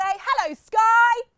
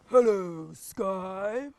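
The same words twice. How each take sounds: First: It is said in a normal voice. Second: It is said in a big deep voice.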